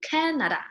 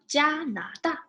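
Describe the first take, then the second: First: Said in the usual way. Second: Canada said as jia-na-da, jia high and level; Mandarin Jianada. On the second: Shown as a demonstration. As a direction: swap the English can for a level jia. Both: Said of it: "replace can with jia".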